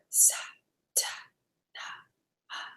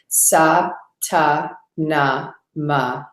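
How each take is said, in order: First: It is whispered without full voice. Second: It is spoken in a full, audible voice.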